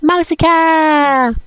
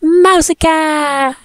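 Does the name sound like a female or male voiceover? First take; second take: female; female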